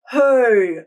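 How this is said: The voice resonates in the back mouth. "a back of the mouth placement"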